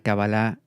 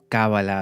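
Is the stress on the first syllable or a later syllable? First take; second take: later; first. First: The stress falls on a later syllable. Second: The stress falls on the first syllable.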